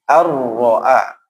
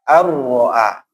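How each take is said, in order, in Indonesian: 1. Bunyi n dilebur ke dalam r. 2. Bunyi n dilebur ke dalam r.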